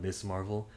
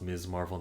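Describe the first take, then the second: First: The first word ends with a hissing s sound. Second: The first word ends with a buzzing z sound. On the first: The speaker calls it wrong. "not Miss Marvel" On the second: The speaker calls it right. "her name is pronounced Miz Marvel"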